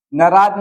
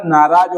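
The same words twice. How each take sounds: First: नाराज with short first a, "naraaj"; wrong form. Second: नाराज with long "naa"; correct form. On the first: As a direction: clip the "na" of नाराज. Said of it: "नाराज नहीं होगा". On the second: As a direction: stretch the first vowel of नाराज. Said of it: "नाराज होगा". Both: Shown as a demonstration.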